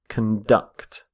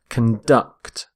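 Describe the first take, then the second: First: The stress is on the second syllable. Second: The stress is on the second syllable.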